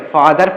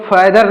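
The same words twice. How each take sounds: First: फादर with a long open "aa"; correct father pronunciation. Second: फैदर with an "ai" vowel, as in "fad"; mispronounced father. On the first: Teacher gives learners the right reading, correctly pronounced फादर. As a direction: say फादर with "faa" as the first syllable. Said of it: "फादर पढ़ेंगे". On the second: Teacher warns learners off this reading, mispronounced फैदर. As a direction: say फैदर with a wrong short front "fai" opening. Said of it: "इसको फैदर नहीं पढ़ेंगे". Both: Shown as a demonstration.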